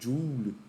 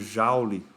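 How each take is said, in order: First: The word is pronounced the English way. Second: The word is pronounced the Portuguese way.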